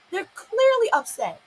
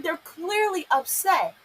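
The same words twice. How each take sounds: First: Higher, slow and insistent; indignant insistence; emphatic repeat. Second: Said in the usual way. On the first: Real, not acted. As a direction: push the point home, higher.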